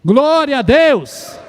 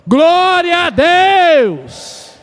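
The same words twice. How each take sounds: First: Slow, loud call, somewhat higher; a solid but held-back shout of praise; first shout, not yet full force. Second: Much higher and louder, stretched very slowly; second shout, all-out; full-force praise shout. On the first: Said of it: "Vamos falar glória a Deus em alta voz?". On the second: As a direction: give it everything this time, bring the walls down. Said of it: "Vamos lá de novo?". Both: Shown as a demonstration.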